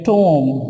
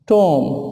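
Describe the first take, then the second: First: The b is silent. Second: The same.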